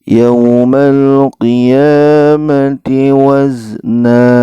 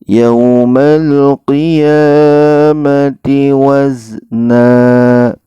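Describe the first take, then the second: The two takes are said the same way.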